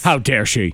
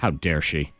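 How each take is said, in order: First: It is said louder than before. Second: It is said at the lowest volume.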